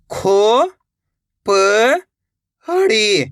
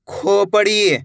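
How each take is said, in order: First: "खो ... प ... हड़ी", drawn out with long gaps; letter by letter. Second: Said in the usual way. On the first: Shown as a demonstration. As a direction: sound out "खो प हड़ी" separately. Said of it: "एक एक अक्षर का उच्चारण". ("खो ... प ... हड़ी" अलग-अलग, धीरे) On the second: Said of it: "शब्द का उच्चारण".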